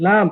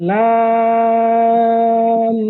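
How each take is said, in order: First: Said in the usual way. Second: লাম stretched extremely long on one held note; elongated madd. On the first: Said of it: "লাম ফাতহা". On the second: Shown as a demonstration. Teacher showing where to make madd, very long drawn-out লাম. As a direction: hold the aa of লাম, then hum the final m. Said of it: "এখানে মাদ করব".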